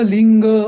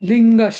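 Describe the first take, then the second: First: The word ends without a linking 'sh' sound. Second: The word ends with a linking 'sh' sound. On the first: The speaker calls it wrong. "तू ना लिंग असं म्हटलं तसं नाही म्हणायचं" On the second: The speaker calls it right. "लिंगश असं"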